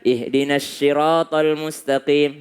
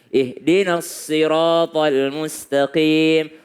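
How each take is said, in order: First: The first sound of sirat sounds like sh. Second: The first sound of sirat sounds like s. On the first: The speaker calls it wrong. "Ada orang membaca ... salah" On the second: The speaker calls it right. "Lebih dekat kepada huruf sin"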